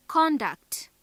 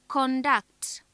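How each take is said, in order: First: CON-duct, first syllable higher and stronger; stress on first syllable. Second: Con-DUCT, weight on the last syllable; stress on second syllable. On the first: Teacher shows the noun conduct, first syllable stressed. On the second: Teacher shows the verb conduct, second syllable stressed. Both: Shown as a demonstration. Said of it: "Note how the stress on different syllables".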